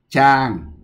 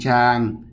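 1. Âm tiết này có thanh xuống. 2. Âm tiết này có thanh ngang.

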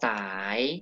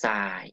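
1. พยางค์นี้เป็นเสียงขึ้น 2. พยางค์นี้เป็นเสียงต่ำ

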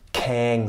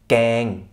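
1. Der erste Konsonant hat einen Hauch. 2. Der erste Konsonant ist hart, ohne Hauch. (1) "also nicht mit H"

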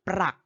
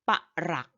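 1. เป็นหนึ่งพยางค์ มีเสียงควบ pr 2. เป็นสองพยางค์ pa แล้วตามด้วย rak (1) "ถ้าพูดเรื่องเงินเมื่อไหร่, อ่านว่าปรักทันทีค่ะ" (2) "ถ้าพูดเรื่องของหัก, อ่านว่าปะรัก"

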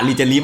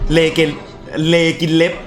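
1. ชื่อนี้ขึ้นต้นด้วยเสียง 'ree' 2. ชื่อนี้ขึ้นต้นด้วยเสียง 'lay' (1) "แต่อ่านรีเจลิฟมาจนชินแล้ว" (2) "อ่านว่าอะไรนะเลกินเล็บ"

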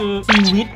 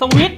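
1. เริ่มด้วยเสียง 'see' ยาวๆ 2. เริ่มด้วยเสียง 'sa' สั้นๆ (1) "ไม่ได้นะอ่านว่า" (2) "บางคนอ่านสวิท"

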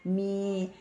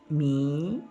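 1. 이 음절은 평성으로 발음해요. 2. 이 음절은 올라가는 소리로 발음해요. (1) "평성으로 미 이렇게 평성이 되겠죠" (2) "미 사성이 되는 거예요"

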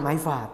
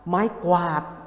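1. คำที่สองขึ้นต้นด้วยเสียง f ธรรมดา 2. คำที่สองขึ้นต้นด้วยเสียงควบ kw

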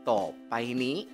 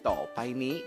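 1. Suku kata tengah diucapkan penuh sebagai 'pai'. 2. Suku kata tengah diucapkan penuh sebagai 'pai'.

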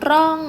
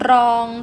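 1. พยางค์นี้ออกเสียงเป็นเสียงตก 2. พยางค์นี้ออกเสียงเป็นเสียงสามัญ

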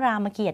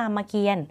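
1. คำนี้ลงท้ายด้วย 'kiat' ตัวสะกดท้ายออกเสียง 2. คำนี้ลงท้ายด้วย 'kian' ตัวสะกดท้ายไม่ออกเสียง (1) "ไม่อ่านว่ารามเกียรติ์อีกต่อไป" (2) "ตัวนี้ไม่ออกเสียง, อ่านว่ารามเกียรติ์"

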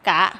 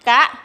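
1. พยางค์นี้เป็นเสียงขึ้น 2. พยางค์นี้เป็นเสียงสูง (1) "กะไม่จัตวากะ" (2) "กะไม่ตรีกะ"

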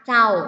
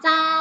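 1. คำว่า “เจ้า” พูดด้วยสำเนียงอีสาน 2. คำว่า “เจ้า” พูดด้วยสำเนียงเหนือ (1) "ถิ่นอีสานเจ้า" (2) "ถิ่นเหนือก็คำว่าเจ้า"

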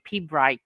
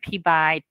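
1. Bunyi r setelah b diucapkan. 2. Bunyi r setelah b dihilangkan. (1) "bukan mereka bukan bilang P-Bright" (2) "tapi mereka bilangnya P-Byte"

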